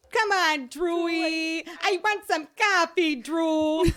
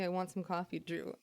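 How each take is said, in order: First: High, loud, drawn-out whine of a plea; performed coffee plea. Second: Said in the usual way. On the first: Shown as a demonstration. Performing for cousin Drew to make her laugh, high loud put-on plea. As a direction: beg loudly in a high put-on voice. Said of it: "And I would go". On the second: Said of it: "She would make me say".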